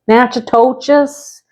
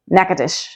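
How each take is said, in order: First: The name starts with a 'natch' sound. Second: The name starts without a 'natch' sound. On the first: The speaker calls it wrong. "making me repeat myself several times" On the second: The speaker calls it right. "The correct way to say it is Natchitoches. There's no nat or natch in that"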